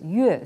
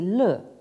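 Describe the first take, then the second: First: The syllable begins with a y sound. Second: The syllable begins with an l sound. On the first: It means music. "quand on le prononce yue, ça veut dire donc la, la musique" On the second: It means being happy. "on peut également le prononcer le, auquel cas ça signifie donc le fait d'être heureux"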